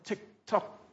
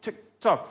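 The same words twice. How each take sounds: First: Soft, ticking tick tock; hushed imitation of a clock; mock clock ticking. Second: Mock clock ticking. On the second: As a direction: land the last tock with a fall. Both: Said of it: "We go, "Oh, time".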